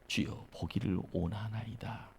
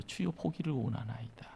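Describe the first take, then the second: First: Faint, softer, shy plea; dying voice. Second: Faint, softer, timid plea; dying voice. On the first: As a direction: barely whisper the plea, embarrassed. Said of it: "다 죽어가는 목소리로요". (다 죽어가는 목소리) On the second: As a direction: murmur it as if fading away. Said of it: "다 죽어가는 소리요". (다 죽어가는 소리) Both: Retold or imitated.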